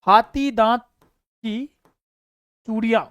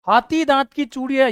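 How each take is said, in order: First: हाथी दांत, pause, की, pause, चूड़ियां, word by word; teacher spelling out the term for students to note; spaced out. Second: Said in the usual way. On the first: Shown as a demonstration. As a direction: dictate हाथी दांत की चूड़ियां with long gaps.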